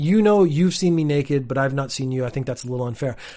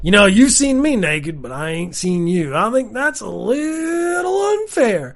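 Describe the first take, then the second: First: It is said in a plain, serious voice. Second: It is said in a put-on redneck voice.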